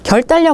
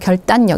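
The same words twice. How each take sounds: First: The middle consonants are both L sounds. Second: The middle consonants are both N sounds. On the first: The speaker calls it wrong. "결단력 아니고" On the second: The speaker calls it right. "니은 니은으로 발음이 돼요"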